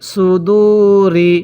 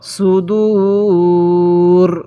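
First: The word ends with a short i vowel. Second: The word ends on the r consonant. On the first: The reading continues without a stop. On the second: The reading stops at this word.

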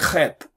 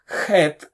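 First: It starts with a scratchy, rough kh. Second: It starts with a smooth, breathy throat h. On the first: This is how it is pronounced in Israel today. "they say chet" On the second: This is the older, original pronunciation. "They don't say chet"

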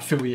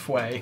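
First: The first syllable sounds like 'fwee'. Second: The first syllable sounds like 'fway'. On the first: The speaker calls it wrong. "it's not Fui" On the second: The speaker calls it right. "it's Fue. Which makes sense, because like Fuego"

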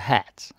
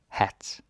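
First: The word is said with an English accent. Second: The word is said with a Danish accent.

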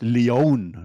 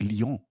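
First: The name sounds like "Lee-on", American style. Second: The name is said with French pronunciation. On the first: This is how Americans say it. The speaker calls it wrong. "die Amerikaner haben immer gesagt, Leon" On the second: This is how the name really goes. The speaker calls it right. "Das heißt Lyon"

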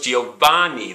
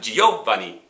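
First: The stress falls on the middle syllable va. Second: The stress falls on a syllable other than va. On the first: The speaker calls it right. "They know it's Giovanni. They know that's where the stress is" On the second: The speaker calls it wrong. "They know it's not Giovanni"

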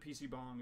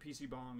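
First: It is said with a Korean accent. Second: It is said with a Korean accent.

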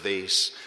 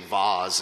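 First: It is pronounced the plain, ordinary way. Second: It is pronounced the snobbish, refined way. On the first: The speaker sounds down to earth. "instead of vase" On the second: The speaker sounds refined or posh. "If you're snobbish, ... like you say vase"

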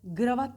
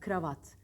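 First: The word begins with a G sound. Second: The word begins with a K sound. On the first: The speaker calls it wrong. "G ile söylenir. Yanlış" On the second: The speaker calls it right. "K olacak"

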